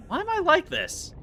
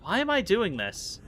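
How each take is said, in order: First: Much higher squeaked question; squeaky self-mockery. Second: Said in the usual way. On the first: Real, not acted. Streamer laughing at her own antics, high squeak. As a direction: squeak it at yourself in mock despair.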